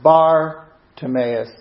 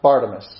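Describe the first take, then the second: First: Bar is set apart from Timaeus. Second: Bar runs straight into Timaeus. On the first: The speaker calls it right. "the separation of the sounds" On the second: The speaker calls it wrong. "as it's most frequently said"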